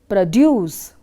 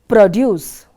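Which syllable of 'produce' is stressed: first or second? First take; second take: second; first. First: The stress is on the second syllable. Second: The stress is on the first syllable. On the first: The word is used as a verb. "for a verb, the stress is on the second syllable" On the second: The word is used as a noun. "The word produce is being stressed for the first syllable"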